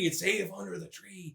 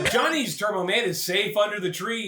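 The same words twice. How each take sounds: First: Soft, slow, lower aside; quiet, drawn-out reassurance; hushed repeat. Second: Said in the usual way. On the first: Acted. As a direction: say it slowly, almost under your breath.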